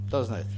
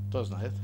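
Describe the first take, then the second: Both takes have the same delivery.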